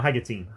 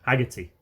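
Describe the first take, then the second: First: The name ends with a 'teen' sound. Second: The name ends with a plain 'tee' sound. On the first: The speaker calls it wrong. "it's not Haggertine" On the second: The speaker calls it right. "It's not teen, it's tea"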